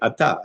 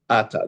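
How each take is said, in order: First: The stress is on the last syllable. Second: The stress is on the first syllable.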